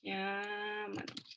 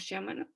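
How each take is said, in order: First: The word begins with a hard k sound. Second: The word begins with a soft ch sound. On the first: The speaker calls it right. "como si en español dijera chiamano" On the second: The speaker calls it wrong. "en vez de chiamano o chiamano"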